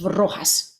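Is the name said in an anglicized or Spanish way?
Spanish. The name is said with a Spanish pronunciation. This is how the name should be said. The speaker calls it right. "instead of Rojas, obviously"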